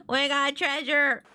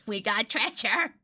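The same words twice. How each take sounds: First: Slow, high, triumphant repeat; excited crowing. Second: Slow, chuckling little announcement; laugh, then savor the news slowly; pleased excitement. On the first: Player celebrating the treasure, triumphantly excited. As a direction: crow it out, stretching the words. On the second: First take, chuckling at treasure. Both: Real, not acted.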